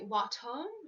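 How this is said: The final r sound is dropped. "in the U K there is no or"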